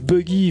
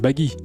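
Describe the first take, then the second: First: The first vowel is said as it is spelled. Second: The first vowel is said like an 'a'. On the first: The speaker calls it wrong. "maintenant je prononce buggy vu que je l'ai, je l'ai vu écrit" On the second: The speaker calls it right. "C'est baggy, baggy évidemment"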